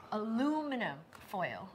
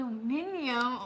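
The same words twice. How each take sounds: First: "Aluminum" said the American way, a-LU-mi-num; American "Aluminum", four syllables, stress on LU; American pronunciation. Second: "Aluminium" tried the British way, a-lu-MIN-i-um; mock-British "Aluminium", five syllables, stress on MIN; imitating British pronunciation. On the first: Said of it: "we call it aluminum foil". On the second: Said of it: "did I say it right?". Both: Shown as a demonstration.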